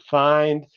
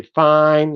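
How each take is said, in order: First: "find" with a clear final d; "find" in full; final d kept. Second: "fine" for find, no d; dropped final d. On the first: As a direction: finish "find" on the d. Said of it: "instead of". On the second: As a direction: stop "fine" on the n. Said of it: "You say". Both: Shown as a demonstration.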